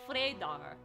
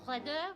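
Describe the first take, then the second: First: It is said with a German accent. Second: It is said with a French accent. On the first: "They hit their D's harder. And their E's are more like A's" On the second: "That's a French accent"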